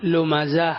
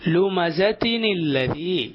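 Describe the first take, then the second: First: The word ends cut off on a bare vowel. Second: The word ends in -tin, running on into the next word. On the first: The reading stops at this verse. "അവിടെ നിർത്തുകയാണെങ്കിൽ ലുമസ എന്ന് നിർത്തണം" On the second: The reading continues into the next verse. "കൂട്ടുക ഓതുകയാണെങ്കിൽ"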